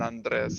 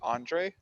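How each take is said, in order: First: The name is pronounced the Spanish way. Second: The name is pronounced the English way. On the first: "I usually tend to pronounce Spanish names in Spanish" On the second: "instead of"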